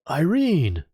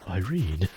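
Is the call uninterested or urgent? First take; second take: urgent; uninterested. First: It is called out urgently, with alarm. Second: It is called out flatly, without interest.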